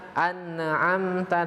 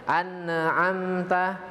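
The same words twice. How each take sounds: Both takes have the same delivery.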